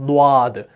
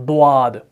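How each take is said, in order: Both takes have the same delivery.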